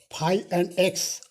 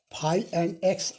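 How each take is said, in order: Both takes have the same delivery.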